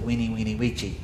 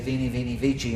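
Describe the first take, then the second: First: The words begin with a W sound. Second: The words begin with a V sound. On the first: This is the classical style of Latin. "classical Latin pronounces them like W's" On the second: This is the church style of Latin. "ecclesiastical Latin pronounces V's like V's"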